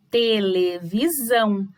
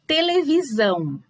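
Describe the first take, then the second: First: "televisão" slowed into te-le-vi-SÃO; syllable by syllable. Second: Said in the usual way. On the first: Shown as a demonstration. Teacher separating syllables for pupils, slow and measured.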